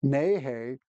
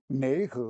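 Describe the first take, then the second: First: "Neihei" as "nay-hay"; dialect NI HAO. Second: "Neihe" as a slow "nay-huh"; dialect NI HAO. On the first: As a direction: end "Neihei" on a clear "hay". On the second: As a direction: end "Neihe" on a loose "huh". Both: Shown as a demonstration. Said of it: "very different sounds".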